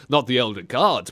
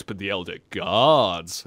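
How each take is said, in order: First: Said in the usual way. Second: "Gods" stretched out slow and low; mock-grand slow emphasis on "Gods"; drawn-out stress on Gods. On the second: Shown as a demonstration. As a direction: lower and drag the word "Gods".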